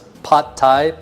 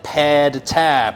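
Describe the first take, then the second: First: The first word sounds like 'pot'. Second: The first word sounds like 'pad'. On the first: "I've always pronounced it as pot Thai" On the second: "the definitely worst way to pronounce it would be like"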